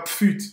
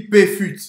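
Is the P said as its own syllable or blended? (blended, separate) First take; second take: blended; separate. First: The P is blended straight into the word. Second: The P is said as a separate syllable. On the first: The speaker calls it wrong. "Ça se dit pas pfut" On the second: The speaker calls it right. "ça se dit P-fut"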